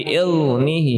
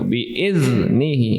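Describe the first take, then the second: First: The consonant is only lightly touched, not pressed. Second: The consonant is pressed firmly and held. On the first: The speaker calls it wrong. "bi'il itu nyenggolin bukan menekan" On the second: The speaker calls it right. "harusnya ditekan net gitu"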